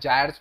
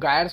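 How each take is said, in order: First: It starts with a j and a long i sound. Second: It starts with a hard g and a long i sound. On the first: "या जायर्स वगैरह भी कुछ कुछ pronounce करते हैं" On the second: "इनको गायर्स बोला जाता है"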